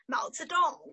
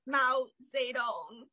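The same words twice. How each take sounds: First: The name is said with Chinese-like sounds. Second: The name is said with anglicized sounds. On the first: The speaker calls it right. "how to say a name" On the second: The speaker calls it wrong. "instead of like"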